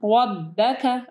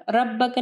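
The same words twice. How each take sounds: First: रब्बका opening on a rounded, heavy "ro"; रब्बका with a full-mouthed first syllable. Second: रब्बका with a thin, light "ra"; रब्बका, first syllable light, not rounded; wrong light Ra. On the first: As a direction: say रब्बका as "Robbaka", thick R. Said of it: "रा को heavy पढ़ना है". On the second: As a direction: say रब्बका quickly with a flat a after R. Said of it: "रब्बका नहीं". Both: Shown as a demonstration.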